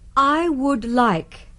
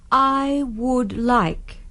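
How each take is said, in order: The two takes are said the same way.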